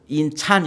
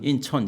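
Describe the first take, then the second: First: The name is said with the vowel 'a'. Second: The name is said with the vowel 'eo'. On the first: The speaker calls it wrong. "인찬 이렇게 발음하는 사람은 없고" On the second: The speaker calls it right. "발음을 제법 잘해요"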